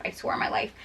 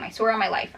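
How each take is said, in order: First: Whispered, no voice at all; hushed unvoiced vow. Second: Said in the usual way. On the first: Shown as a demonstration. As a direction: breathe it as a secret oath.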